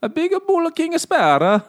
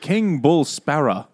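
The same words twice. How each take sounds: First: High, loud cartoon Italian accent; bippity-boppity Italian accent. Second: Higher-pitched mock Jamaican accent. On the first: Shown as a demonstration. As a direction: bounce it out in hammed-up Italian. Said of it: "like, a bippity boppity Italian accent too". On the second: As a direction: put on a playful Jamaican lilt. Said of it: "They are Jamaican".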